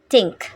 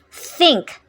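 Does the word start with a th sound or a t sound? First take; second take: t; th. First: It begins with a t sound. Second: It begins with a th sound.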